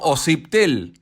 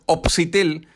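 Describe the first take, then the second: First: The P sound comes after the S. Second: The P sound comes before the S. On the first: The speaker calls it right. "y no Ociptel" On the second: The speaker calls it wrong. "La gente suele decir op Opsitel"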